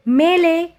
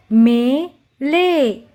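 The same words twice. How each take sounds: First: Said in the usual way. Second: "मेले" broken into मे... ले; "मेले" very slow, paused mid-word; syllable by syllable. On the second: Shown as a demonstration. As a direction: draw out both halves of "मेले". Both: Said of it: "उच्चारण करके पढ़ेंगे".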